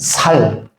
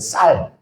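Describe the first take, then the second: First: The first consonant is plain. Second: The first consonant is tense. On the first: "살 그럽니다" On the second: "쌀을 잘 못하죠"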